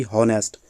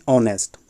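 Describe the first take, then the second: First: हॉनेस्ट said with a clear ह sound at the start; हॉनेस्ट with the h wrongly pronounced; wrong voiced h. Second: ऑनेस्ट said with silent h, starting on the vowel ओ; ऑनेस्ट without any ह sound at the start; silent h pronunciation. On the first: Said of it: "ना कि हॉनेस्ट". (हॉनेस्ट को शुरू में ह की आवाज़ के साथ, गलत उच्चारण की तरह) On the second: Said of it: "इसको हम पढ़ते हैं ऑनेस्ट". (ऑनेस्ट को बिना ह की आवाज़ के, सीधे ओ से बोलें) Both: Shown as a demonstration.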